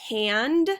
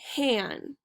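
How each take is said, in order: First: The final d sound is pronounced. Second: The final d sound is dropped. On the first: This is the standard American English form. "Another example would be hand" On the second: "and han"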